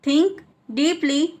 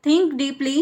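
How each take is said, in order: First: "think", clear pause, "deeply"; word by word. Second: Said in the usual way. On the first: Shown as a demonstration. Teacher repeats for learners, word by word.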